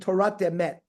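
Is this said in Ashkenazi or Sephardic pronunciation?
Sephardic. It ends with a t sound, Sephardic style.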